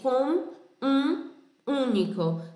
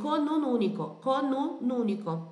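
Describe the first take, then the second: First: Words are separated and the vowels sound nasal. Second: Each n links onto the next vowel, unnasalized. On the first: The speaker calls it wrong. "Não vai ser com um único" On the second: The speaker calls it right. "vai ser conun único"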